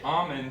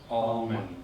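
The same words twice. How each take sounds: First: No L sound is pronounced in the word. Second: An L sound is pronounced in the word. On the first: The speaker calls it right. "you won't say the L sound" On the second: The speaker calls it wrong. "many people will say almond. Like A L L M O N D. It's technically not right"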